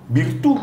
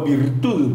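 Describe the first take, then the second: First: Virtud said the Italian way, no final D, stress on the U. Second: Virtud with its final D pronounced; Spanish virtud. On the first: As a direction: say Virtud as virtù, ending open on the stressed U. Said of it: "Virtud en italiano". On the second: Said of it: "Como castellano". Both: Shown as a demonstration.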